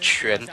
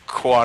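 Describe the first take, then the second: First: The name begins with a 'ch' sound. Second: The name does not begin with a 'ch' sound. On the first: The speaker calls it right. "It's Quan. So kind of uh, channel the C H sound" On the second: The speaker calls it wrong. "or like uh, Quan or anything like that"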